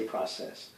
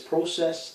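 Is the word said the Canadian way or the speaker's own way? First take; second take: own way; Canadian. First: The word is said the speaker's own way. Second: The word is said the Canadian way. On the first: This is how the speaker himself says it. "and I say process" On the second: This is how the Canadian colleague says it. "She says process"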